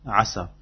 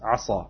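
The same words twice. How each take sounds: First: The s sound is plain and light. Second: The s sound is dark and emphatic. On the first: It means hopefully or perhaps. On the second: It means someone was disobedient.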